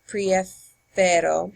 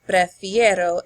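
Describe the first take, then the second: First: The stem vowel is a plain 'e'. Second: The stem vowel is the diphthong 'ie'. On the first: The speaker calls it wrong. "it doesn't sound as good" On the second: The speaker calls it right. "I would say prefiero"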